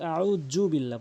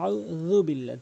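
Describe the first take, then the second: First: The consonant is pronounced like an English 'j'. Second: The consonant is made with the tongue tip at the teeth. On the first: The speaker calls it wrong. "অধিকাংশ লোক জ বলে, যার ফলে ভুল উচ্চারণ হয়" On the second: The speaker calls it right. "বলতে হবে ... জিহ্বার আগা, দাঁতের আগা থেকে"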